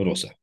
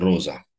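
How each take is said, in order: First: The middle consonant is a hissing s sound. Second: The middle consonant is a buzzing z sound. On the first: The speaker calls it right. "citim rosa" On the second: The speaker calls it wrong. "Nu citim roza"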